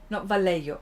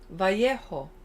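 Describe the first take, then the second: First: The double L is said as an L sound. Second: The double L has no L sound. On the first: The speaker calls it wrong. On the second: The speaker calls it right. "you don't even pronounce the L"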